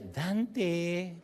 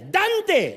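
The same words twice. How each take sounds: First: It is called sweetly, promising something nice. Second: It is called sharply, with annoyance.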